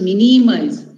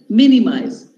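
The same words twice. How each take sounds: First: The stress falls on a later syllable. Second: The stress falls on the first syllable. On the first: The speaker calls it wrong. "We don't say minimize" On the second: The speaker calls it right. "the stress falls here on the third last"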